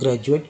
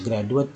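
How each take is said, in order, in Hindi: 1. 'gra' के बाद वाला व्यंजन ज ध्वनि है। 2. 'gra' के बाद वाला व्यंजन साधारण ड है। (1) "जब ज लगा दिया ... जो कि सही उच्चारण है" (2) "अगर ड लगाते हैं हम लोग तो ग्रेजुएट पढ़ते हैं"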